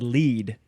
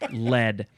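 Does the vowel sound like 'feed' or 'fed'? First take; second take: feed; fed. First: The vowel is long, as in 'feed'. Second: The vowel is short, as in 'fed'. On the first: The speaker calls it wrong. "I almost said lead" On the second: The speaker calls it right. "it's pronounced lead"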